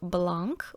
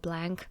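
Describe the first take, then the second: First: It is said with a French pronunciation. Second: It is said with an American English pronunciation. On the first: "Some say it the more French way" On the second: "others say it a really like American English way"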